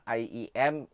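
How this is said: The letter names sound English. "in English"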